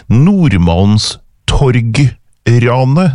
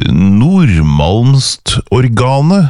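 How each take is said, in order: First: Nordmalmstorgranet very slow, split as Nordmalms, torg, ranet; careful rereading. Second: Nordmalmstorgane drawn out slowly as a baffling word; puzzled misreading. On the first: Host reading the word once more, slow careful parsing. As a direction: piece "Nordmalmstorgranet" together slowly, torg and ranet set apart, rising. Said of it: "nå må jeg lese det ordet en gang til". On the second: Host puzzling over an unknown word, slow questioning misreading. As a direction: read "Nordmalmstorgane" very slowly, ending in a questioning rise. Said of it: "hva er dette, tenkte jeg".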